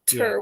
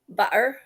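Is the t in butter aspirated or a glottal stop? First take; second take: aspirated; glottal stop. First: The t is released with a puff of air. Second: The t is a glottal stop. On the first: "air puff top of the butt" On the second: "by compressing the glottis. And so I say"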